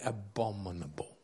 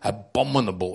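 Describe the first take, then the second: First: It is said softly, with warmth. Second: It is said harshly, with hard tones.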